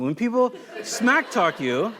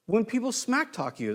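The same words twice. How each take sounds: First: Slow, chuckling through "smack talk"; amused at his own loose paraphrase; laughing. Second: Said in the usual way. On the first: Shown as a demonstration. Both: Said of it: "That's not King James Version".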